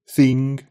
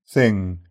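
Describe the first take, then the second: First: The vowel is fronted, close to ee. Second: The vowel is a short lax i. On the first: "Red text, read in Brummie, followed by GB" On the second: "followed by GB"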